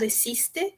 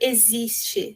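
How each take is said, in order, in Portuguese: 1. O x é pronunciado com som suavizado. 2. O x é pronunciado como um z sonoro. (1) "ou suavizado existe" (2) "mas nunca vai ser pronunciado existe, né, como no português"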